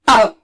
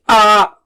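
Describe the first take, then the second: First: The vowel is short with a sharp start. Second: The vowel is stretched out long. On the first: The speaker calls it right. "Take a sharp start" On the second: The speaker calls it wrong. "don't stretch it. Don't say ah"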